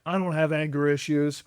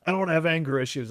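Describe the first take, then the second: First: A hint of a defensive man; lightly voiced gruff denial; mock denial. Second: Fast, lightly mocking defensive man; mock denial. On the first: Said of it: "denial of, like". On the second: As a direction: rattle off the denial quickly. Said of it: "That's my favorite thing with men".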